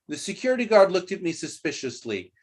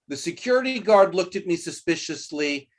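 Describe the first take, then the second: The two takes are said the same way.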